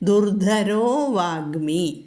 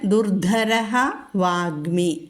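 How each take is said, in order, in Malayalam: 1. ആദ്യ വാക്ക് ഒ സ്വരത്തിൽ അവസാനിക്കുന്നു. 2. ആദ്യ വാക്ക് ശ്വാസയുക്തമായ ഹ യിൽ അവസാനിക്കുന്നു. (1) "അപ്പോൾ ദുർധരോ വാഗ്മി" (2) "പിന്നെ ദുർധരഃ വാഗ്മി"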